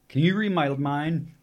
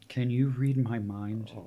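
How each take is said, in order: First: It is read quickly in a plain voice. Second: It is read slowly in a sultry voice.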